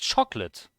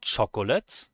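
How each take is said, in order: First: The middle O is dropped entirely. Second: The middle O is pronounced as a syllable. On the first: The speaker calls it right. "The O does not get pronounced" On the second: The speaker calls it wrong. "It's not chocolate"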